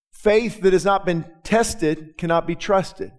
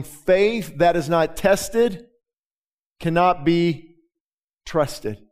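First: Slow, weighty repeat of the whole maxim; slow emphatic saying. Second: Slow, weighty words, pausing before trusted; slow emphatic saying. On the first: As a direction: press the maxim home, slowly. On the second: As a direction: let each word land, then a pause before trusted. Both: Shown as a demonstration.

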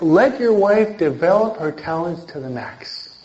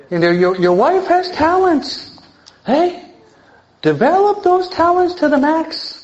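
First: Said in the usual way. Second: Much higher, pushing up into a rising plea; fervent preaching. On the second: Real, not acted. Preacher urging husbands to let wives grow, high and fervent. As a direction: lift the voice high and urge it hard.

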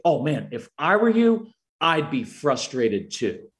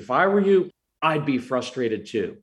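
First: Put-on meet the child's feeling with matching intensity. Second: With intensity. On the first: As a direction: empathetic intensity to a frustrated child. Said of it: "I give them intensity and I say". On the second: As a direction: acknowledge the feeling with real intensity. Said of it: "I just said". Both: Shown as a demonstration.

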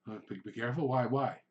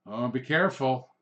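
First: Acted bewildered customer; puzzled questioning. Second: Firm, louder warning with a falling end; ominous word of caution; mock warning. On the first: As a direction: repeat the warning back as a worried question. Couple question the warning. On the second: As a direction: caution them like someone who knows better. Warns couple at the window.

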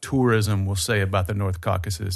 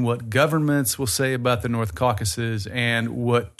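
First: Tourism stressed as the answer to governments. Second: Governments leaned on as the contrast word; stress on governments. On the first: Host to listeners, contrasting sources, stress on tourism. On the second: Host to listeners, contrasting sources, stress on governments. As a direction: hit "governments" to set it against tourism. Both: Shown as a demonstration. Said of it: "create a divide in your mind between".

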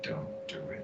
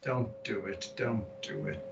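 First: Breathy whispered warning, fading out. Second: Low, fading murmur of warning; quiet warning. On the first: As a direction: let the warning die into a whisper. Third repeat, faded to a whisper. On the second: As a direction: warn them under your breath, trailing off. Warning the spellcaster, fading away. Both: Pretend.

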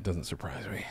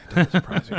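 First: Said in the usual way. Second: "doesn't" punched higher and louder; emphatic repeat. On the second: Real, not acted.

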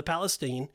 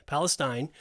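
First: "Palestine" with last syllable rhyming with "seen"; "Palestine" with a long ee in the final syllable; Palestine ending in "-steen". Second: "Palestine" with last syllable rhyming with "fine"; "Palestine" with a long i in the final syllable; Palestine ending in "-stine". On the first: Says it, then corrects the pronunciation. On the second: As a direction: say "Palestine" as PAL-uh-styne. Corrects own pronunciation of the word. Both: Real, not acted.

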